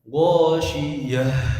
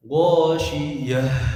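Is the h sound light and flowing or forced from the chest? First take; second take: forced; forced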